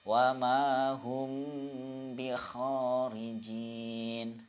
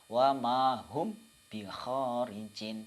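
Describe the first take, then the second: First: The m is held with a two-beat nasal hum. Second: The m is cut short without a nasal hum. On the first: The speaker calls it right. "Yang betul" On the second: The speaker calls it wrong. "tidak bisa dibaca"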